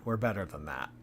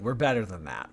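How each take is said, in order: First: Quieter repeat, a touch lower; We're better than that, murmured a second time; softer echo. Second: Said in the usual way. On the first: Shown as a demonstration. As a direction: let it fall away softly to yourself.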